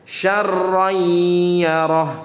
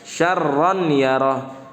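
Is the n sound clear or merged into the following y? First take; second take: merged; clear. First: The n sound merges into the following y. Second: The n sound is pronounced clearly before y. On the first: The speaker calls it right. "tanwinnya dileburkan ke huruf setelahnya" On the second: The speaker calls it wrong. "jangan dibaca syarron yarah"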